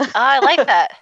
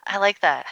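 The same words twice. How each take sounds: First: Delighted. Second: Said in the usual way. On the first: Real, not acted. Delighted reaction to host's metaphor.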